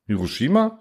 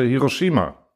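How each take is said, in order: First: "Hiroshima" as a puzzled question, pitch rising at the end; fragendes Echo. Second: Said in the usual way. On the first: A narrator's reading. Zuhörer fragt verständnislos nach. ("Hiroshima" als verständnislose Rückfrage, am Ende steigend)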